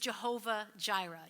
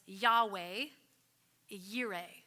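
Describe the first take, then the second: First: Both words begin with a J sound. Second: Both words begin with a Y sound. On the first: The speaker calls it wrong. "Jehovah is not the proper way to pronounce the Hebrew" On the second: The speaker calls it right. "it's much better said as Yahweh, Yireh"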